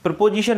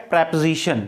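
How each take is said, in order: First: प्रीपोजिशन said "pre-po-ji-shan", with a full o and a j; प्रीपोजिशन as "pre-PO-jishan"; common mispronunciation. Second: प्रीपोजिशन said "prep-zi-shan", the o dropped; प्रीपोजिशन as "prep-zishan", no "po"; correct pronunciation. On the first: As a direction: say प्रीपोजिशन with a clear "po" and "ji". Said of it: "प्रीपोजिशन नहीं बोलना है". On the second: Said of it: "इसका correct pronunciation क्या है". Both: Shown as a demonstration.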